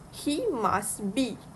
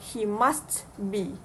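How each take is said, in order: First: The t at the end of must is dropped. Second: The t at the end of must is pronounced. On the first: The speaker calls it right. "the th sound is elided, which become must be" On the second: The speaker calls it wrong.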